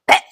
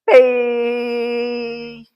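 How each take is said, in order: First: The syllable is cut off short and sharp. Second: The syllable is drawn out and long. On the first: The speaker calls it right. "It also needs to be really shortly pronounced" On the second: The speaker calls it wrong.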